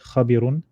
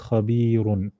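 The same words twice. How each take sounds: First: The vowel is short, not drawn out. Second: The vowel is drawn out a little longer. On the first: The speaker calls it wrong. "So not" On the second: The speaker calls it right. "then we'll pull it a little bit"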